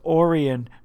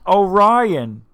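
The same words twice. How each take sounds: First: The second syllable sounds like 'ee'. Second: The second syllable sounds like 'eye'. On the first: This is how another person says it. "The guy actually says it that way. He goes, Orion" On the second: This is the usual way to say it. "not Orion"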